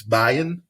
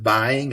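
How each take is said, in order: First: "buying" said as "buyin'", ending in a plain n; dropped G. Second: Said in the usual way. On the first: Shown as a demonstration. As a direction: drop the final g of "buying". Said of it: "It doesn't have the G at the end". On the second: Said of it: "It doesn't have the G".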